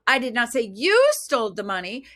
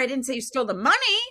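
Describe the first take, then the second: First: The word 'you' carries the main stress. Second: The word 'money' carries the main stress. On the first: Someone other than the listener took it. "It's like you, somebody else did, not you" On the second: Something other than the money was taken. "you stole the car, you didn't steal the money"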